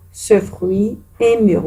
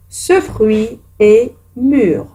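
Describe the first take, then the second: First: Said in the usual way. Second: Each word drawn out for pupils to copy; a teacher's slow dictation. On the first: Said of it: "repeats it". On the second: Shown as a demonstration. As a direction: read it slowly like a dictation. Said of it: "dictates the exercise sentence".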